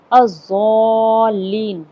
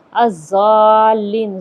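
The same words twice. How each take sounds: First: الضالین with a heavy daad, very slow and drawn out; الضالین recited slowly, daad from the tongue's side; correct pronunciation. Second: الضالین with a z sound instead of daad, very slow and louder; الضالین drawn out with a plain z; wrong pronunciation. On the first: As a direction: stretch الضالین with the full daad. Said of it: "ضاد سے". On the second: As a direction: say الضالین as azallin, the mistake. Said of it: "ضا سے کر دیں". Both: Shown as a demonstration.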